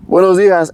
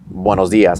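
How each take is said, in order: First: "buenos dias" shouted out high and loud; shouted greeting. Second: Said in the usual way. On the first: Retold or imitated. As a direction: call "buenos dias" out to the back of the building. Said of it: "scream out, 'Buenos dias.'". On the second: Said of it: "scream out".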